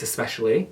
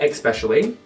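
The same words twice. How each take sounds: First: The word begins with an es sound. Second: The word begins with an ex sound. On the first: The speaker calls it right. "it's especially" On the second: The speaker calls it wrong. "When people say especially"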